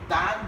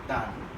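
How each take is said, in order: First: The word is said with a full vowel. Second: The word is said with a reduced vowel.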